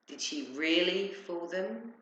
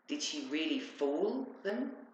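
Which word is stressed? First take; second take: really; fool. First: The stress falls on the word really. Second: The stress falls on the word fool. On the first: It questions whether they were only pretending. "Or were they just pretending to be fooled?" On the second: It questions whether they were actually deceived. "They believed her"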